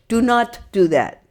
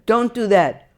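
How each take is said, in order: First: The negative is spoken as full separate words. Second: The negative is contracted into one syllable.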